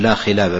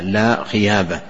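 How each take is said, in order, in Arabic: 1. تُنطق الكلمة الثانية باللام. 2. تُنطق الكلمة الثانية بالياء. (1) "قل لا خلابة باللام" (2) "فينطقها بالياء لا خيابة"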